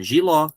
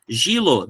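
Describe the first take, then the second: First: Giló with final stress, open ó; correct stress giló. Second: Gilo stressed on "gi"; wrong stress gilo. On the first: Teacher correcting to the right form: stress on the final "ló". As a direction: stress the end: gi-LÓ. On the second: Teacher showing the wrong way: stress on "gi". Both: Shown as a demonstration. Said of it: "Não, giló".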